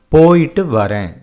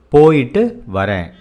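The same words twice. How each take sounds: The two takes are said the same way.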